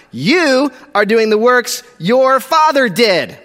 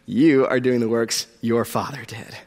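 First: Slow, hard punches on "your father did"; slow, emphatic "You are doing the works your father did"; forceful accusation. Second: Low, hushed repeat of an accusation; soft, low, pointed delivery; quiet accusation. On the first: Accusation read at full force. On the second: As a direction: drop right down and let it sink in. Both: Acted.

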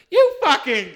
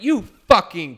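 First: High, loud furious yell; manager yelling. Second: Loud angry outburst; yelled insult. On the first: Manager spins around yelling at customer, loud and high. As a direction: shout it in outrage. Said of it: "My manager spins around and goes". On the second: Bartender yelling back at rude customer, loud. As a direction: snap it out loud and furious. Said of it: "turned around and went". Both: Retold or imitated.

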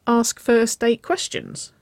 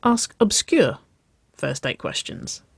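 First: "first date questions" high and drawn out, questioning; slow, higher "ask first date questions"; clarifying question. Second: Confirming, with "obscure" singled out; stress on "obscure". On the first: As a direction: check the idea, pitching "first" high. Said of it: "she clarified". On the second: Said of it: "Nicole nodded". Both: A narrator's reading.

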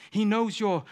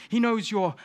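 Both takes have the same delivery.

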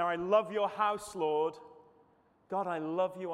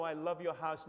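First: Fervent declaration. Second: Said in the usual way. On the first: Acted. Preacher voicing David's psalm.

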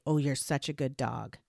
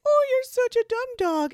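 First: Low, quiet, displeased mutter; bad angry tone. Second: Very high, loud, gushing dog-praise voice; high happy tone. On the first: Owner scolding a dog with kind words, low angry tone. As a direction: praise the dog in a low, cross voice. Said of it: "with a bad tone of voice and an angry face". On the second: Owner insulting a dog as if praising it, high happy tone. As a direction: coo it sky-high, as if praising a pet. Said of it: "in this high, happy tone of voice". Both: Shown as a demonstration.

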